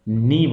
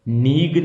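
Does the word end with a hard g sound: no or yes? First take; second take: no; yes. First: The word ends on a long ee vowel. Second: The word ends with a hard g sound. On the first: The speaker calls it right. "नी बोला जाएगा" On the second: The speaker calls it wrong. "नीग नहीं बोलना है इसको"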